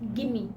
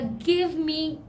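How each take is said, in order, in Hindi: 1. शब्दों को जोड़कर gimme बना दिया जाता है। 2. दोनों शब्द पूरे और अलग-अलग बोले जाते हैं।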